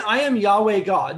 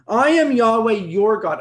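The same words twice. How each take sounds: First: Said in the usual way. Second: "your" leaned on, the solemn scripture line slowed around it; stress on your. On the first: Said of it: "He didn't say". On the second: Shown as a demonstration. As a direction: hit the word "your" so it owns the sentence. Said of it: "Underline the word your".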